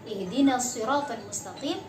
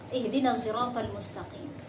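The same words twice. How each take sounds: First: The s in siratal is an emphatic sad. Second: The s in siratal is a blended ishmam. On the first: "ada yang membaca dengan huruf shad" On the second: "Ada pula yang membaca dengan al-ishmam"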